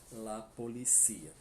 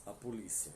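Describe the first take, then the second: First: Policía stressed on the last I, po-li-CÍ-a; Spanish po-li-CÍ-a. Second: Polícia stressed on the LI, po-LÍ-cia; Portuguese po-LÍ-cia. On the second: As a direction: lean on the first I of polícia. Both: Shown as a demonstration. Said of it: "Em espanhol".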